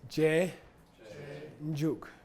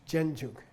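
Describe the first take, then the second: First: It is said slowly as two separate parts. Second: It is said quickly, run together as one. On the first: "say je, njuk" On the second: "If you say it quickly, it comes out jenjuk"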